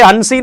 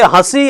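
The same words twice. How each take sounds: First: हंसी with a full N sound before स; rejected "hansi" pronunciation of हंसी; wrong form, full N. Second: हंसी with nasalised first vowel, no full N; stretched हंसी, nasal vowel only; nasal vowel demo. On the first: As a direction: say हंसी as "han-see", N clearly sounded. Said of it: "ये हंसी नहीं है". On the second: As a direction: say हंसी slowly as "hã-see". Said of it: "ये हंसी है". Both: Shown as a demonstration.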